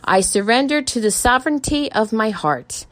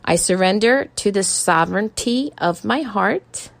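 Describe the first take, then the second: First: It is said at normal speed. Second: It is said slowly.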